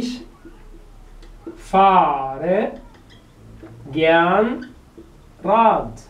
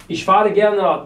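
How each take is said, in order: First: Very slow, a long gap after each word. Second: Said in the usual way. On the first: Shown as a demonstration. Teacher asks how Radfahren is used, word by word. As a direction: stretch FAHRE and GERN, hanging before RAD. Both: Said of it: "تستخدمها ازاي؟".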